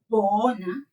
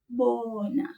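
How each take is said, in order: First: The b is said with a burst of air. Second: The b is said softly without a burst. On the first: The speaker calls it wrong. "we don't say bona" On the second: The speaker calls it right. "we say bona"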